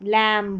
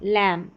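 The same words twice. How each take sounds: Both takes have the same delivery.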